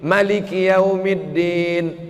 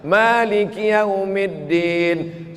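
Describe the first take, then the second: First: The vowel after the first m is short. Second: The vowel after the first m is long. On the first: This follows the Warsh recitation. "Mimnya pendek" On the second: This follows the Hafs recitation. "Di tempat kita mimnya panjang"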